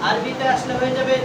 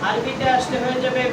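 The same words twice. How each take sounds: Both takes have the same delivery.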